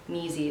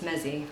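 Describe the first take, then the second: First: The first vowel is a long ee sound. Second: The first vowel is a short e sound. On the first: The speaker calls it wrong. "it's not pronounced Meezy" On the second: The speaker calls it right. "it's Mezzi"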